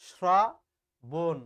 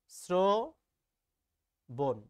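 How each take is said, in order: First: শ্রবণ said wrongly as শ্রাবণ, "sraa... bon"; loud, slow long "aa" in place of o in শ্রাবণ; mispronunciation demo. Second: শ্রবণ very slow, split as "srooo... bon"; syllable-by-syllable o-kar. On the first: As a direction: split শ্রাবণ, hitting a broad "sraa" first. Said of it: "এভাবে না করে উচ্চারণ করি". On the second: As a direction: stretch an o in the first syllable of শ্রবণ. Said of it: "শ্রবণ বানানটা আমি উচ্চারণ এভাবে". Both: Shown as a demonstration.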